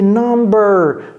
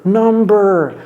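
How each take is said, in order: Both takes have the same delivery.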